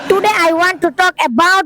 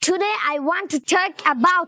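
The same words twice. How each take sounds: First: The t sounds are plain and unaspirated. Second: The t sounds are strongly aspirated. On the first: The speaker calls it wrong. "সবাই আমার ইংরেজি শুনে হাসলো" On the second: The speaker calls it right. "টি কে ঠ এর উচ্চারণ করবেন"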